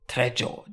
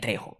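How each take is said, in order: First: The J is said as an English j sound. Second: The J is not said as an English j. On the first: The speaker calls it wrong. "I always read it as Danny Trejo" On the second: The speaker calls it right. "you don't pronounce the J's in Spanish"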